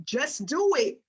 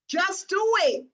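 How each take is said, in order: First: Said in the usual way. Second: Higher, punched-up slogan; emphatic slogan. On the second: Retold or imitated. Coach repeating Nike's famous slogan to trainees, emphatic. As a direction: drive the slogan home with a raised pitch.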